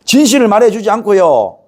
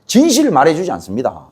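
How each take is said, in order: First: 진실을 punched louder and higher; emphatic repeat. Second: Said in the usual way. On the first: Shown as a demonstration. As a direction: hammer the repeated 진실을 home.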